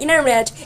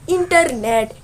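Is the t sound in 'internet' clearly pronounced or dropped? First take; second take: dropped; clearly pronounced. First: The t sound after the n is dropped. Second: The t sound after the n is clearly pronounced. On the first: "they say it like" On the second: "we say this"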